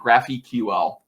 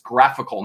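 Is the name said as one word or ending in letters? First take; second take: letters; one word. First: It ends with the letters Q and L spelled. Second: It is said as one word, like 'graphical'. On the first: The speaker calls it wrong. "not GraphQL" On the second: The speaker calls it right. "It's graphical"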